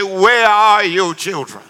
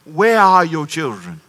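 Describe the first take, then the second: First: Slow, lightly voiced commercial announcer; drawn-out warning from the old ad. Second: Slow, lightly voiced late-night commercial voice; TV announcer. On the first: Pastor recalling the commercial's voice, slow and ominous. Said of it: "it would say". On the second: Pastor quoting a late-night TV ad, slow and ominous. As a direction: ask it like the old public service ad. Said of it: "Remember this commercial?".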